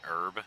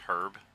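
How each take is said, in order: First: It is said in an American accent. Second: It is said in a British accent.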